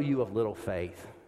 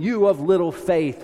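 First: It is said in a gentle tone. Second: It is said in a stern tone.

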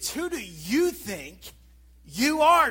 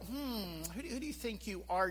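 First: It is said with furious, fuming anger. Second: It is said with mild, skeptical surprise. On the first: The speaker is enraged at the other's actions. "This is a furious, fuming response" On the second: The speaker is merely doubting the other's authority. "the raised eyebrow"

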